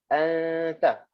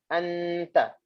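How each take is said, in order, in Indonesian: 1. Bunyi n kabur tanpa lidah menyentuh. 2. Lidah menyentuh penuh, memberi n tertutup yang jelas. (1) "Kalau yang betul" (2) "yang salah macam ni"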